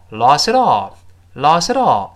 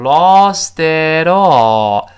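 First: "lost it all" run together quickly, the middle syllable barely heard; fast linked reading. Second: "lost it all" drawn out slowly and louder, each linked syllable clear; full theoretical linking. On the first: Teacher shows how it sounds when read fast, reduced linking. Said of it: "读快了之后". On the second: Teacher shows learners the form in theory before speeding up, slow full linking. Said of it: "理论上是读成". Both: Shown as a demonstration.

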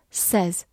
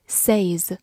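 First: "says" with a short e, like "sez"; correct pronunciation. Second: "says" as "say" plus z; wrong pronunciation. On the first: Teacher shows learners how the word is read, "says" with short e. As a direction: say "says" to rhyme with "fez". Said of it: "它读作says". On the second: Teacher warns learners off a misreading, "says" with long ay. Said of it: "而不是says". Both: Shown as a demonstration.

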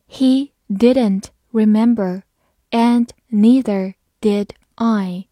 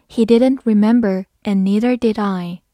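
First: Slow, slightly louder read. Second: Said in the usual way. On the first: Shown as a demonstration. Teacher models the sentence slowly for students, slow and clear. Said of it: "好，慢读一遍". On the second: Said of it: "慢读一遍".

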